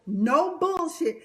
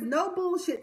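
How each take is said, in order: First: Mocking [name]. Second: Said in the usual way. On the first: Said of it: "this is how professional [name] is". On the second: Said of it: "He says no bullshit".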